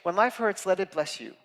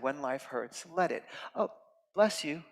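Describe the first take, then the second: First: It is run together quickly without a pause. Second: It is split by a pause before "bless you."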